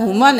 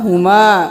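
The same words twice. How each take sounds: First: The final vowel is cut short. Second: The final vowel is lengthened. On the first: The speaker calls it wrong. "नहीं करना" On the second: The speaker calls it right. "अलिफ मद्दा है"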